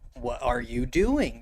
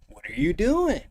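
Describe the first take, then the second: First: The phrase is said slowly and carefully. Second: The phrase is said fast and run together. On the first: The speaker calls it wrong. "You don't want to say" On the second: The speaker calls it right. "You say"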